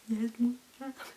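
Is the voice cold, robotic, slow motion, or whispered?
slow motion. It is said in slow motion.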